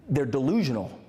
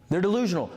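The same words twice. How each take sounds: First: Said in the usual way. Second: Emphatic repeat of delusional; stress on delusional. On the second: Shown as a demonstration. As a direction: hit delusional harder the second time.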